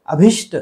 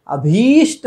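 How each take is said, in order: First: अभिष्ट with a short भि; wrong short i. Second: अभीष्ट with stretched भी; correct long ee. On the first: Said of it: "अभिष्ट नहीं है". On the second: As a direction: hold the ee in अभीष्ट. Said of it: "होना चाहिए". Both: Shown as a demonstration.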